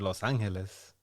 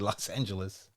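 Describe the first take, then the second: First: The name is said with Spanish pronunciation. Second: The name is said with English pronunciation. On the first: This is how it should be pronounced. "should be pronounced in Spanish" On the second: This is how the speaker habitually says it. "but I say Los Angeles"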